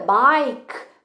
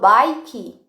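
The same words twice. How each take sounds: First: The word ends on the K with no vowel. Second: A vowel sound is heard after the final K. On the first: The speaker calls it right. "Por que que o E não é falado? É bike" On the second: The speaker calls it wrong. "por que que eu não falo bike?"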